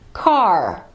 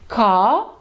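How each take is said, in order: First: The final R is clearly pronounced. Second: The final R is silent.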